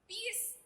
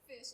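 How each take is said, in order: First: It sounds like pis, in a Bisaya accent. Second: It is said with a standard English f-sh.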